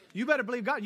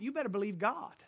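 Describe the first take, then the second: First: You better believe God, louder with "better" hit hard; emphatic repeat. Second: Said in the usual way. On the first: Shown as a demonstration. Preacher urging the congregation to trust God, emphatic. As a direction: punch "better" and drive it home.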